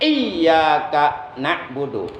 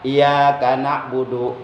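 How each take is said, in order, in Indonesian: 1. Bunyi y dibaca panjang dan ganda. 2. Bunyi y dibaca pendek dan tunggal. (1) "Lafaz iyyaka itu mesti dibaca taskil, dibaca berat" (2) "dibaca takhfif, dibaca enteng, dibaca ringan, seakan-akan tasdidnya dihilangkan"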